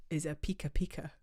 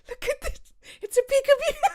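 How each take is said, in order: First: Said in the usual way. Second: Very high, loud, laughing squeal; gleeful squeal. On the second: Pretend. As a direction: squeal it with delight, breaking into laughter. Gleeful squeal at the bird name.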